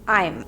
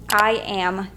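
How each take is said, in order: First: It is said as one contracted word. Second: It is said as two full words.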